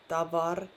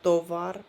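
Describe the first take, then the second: First: The first vowel sounds like A. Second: The first vowel sounds like O. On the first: The speaker calls it right. "the first O was like A" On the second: The speaker calls it wrong. "not tovar"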